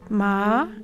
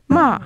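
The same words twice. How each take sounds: First: The pitch rises gently upward. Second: The pitch falls quickly downward. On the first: "a gentle upward gliss" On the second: "a rapid downward gliss"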